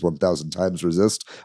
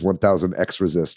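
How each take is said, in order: First: The x is read as the word times. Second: The x is read as the letter ex. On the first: The speaker calls it right. "It is one thousand times resist. I actually looked up how to pronounce it" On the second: The speaker calls it wrong. "I improperly uh, referred to this game as"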